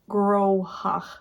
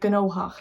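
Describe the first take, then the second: First: It is said the rule-based way, with an o vowel. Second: It is said with gn at the start. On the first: "instead of like groha" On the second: "other parts will say gnohach"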